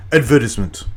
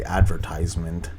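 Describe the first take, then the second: First: "advertisement" said the British way, ad-VER-tis-ment; British pronunciation. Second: "advertisement" said the American way, AD-ver-tize-ment; a long "tize" in "advertisement"; American pronunciation. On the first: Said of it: "it's a British". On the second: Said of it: "they would not say advertisement". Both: Shown as a demonstration.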